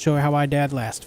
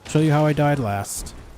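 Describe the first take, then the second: First: It is said in a neutral accent. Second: It is said in a Southern accent.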